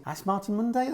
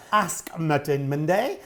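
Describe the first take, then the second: First: "Ash" said with sh in place of the k of Ask; slurred "Ash". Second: "Ask" said slowly with a distinct s and k; slow, careful correction, separating "Ask" from "Martin". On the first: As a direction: run Ask into Martin as "Ash Martin", ending on a questioning rise. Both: Shown as a demonstration. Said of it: "That sounds like I've had a fire".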